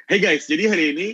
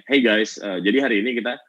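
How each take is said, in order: First: Bright smiling opener. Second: Said in the usual way. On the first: Shown as a demonstration. YouTuber demoing a smiling intro for students, bright upbeat greeting. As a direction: lift "Hey guys" up with a smile. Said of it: "sama kayak gini". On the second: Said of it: "gue mulai nih".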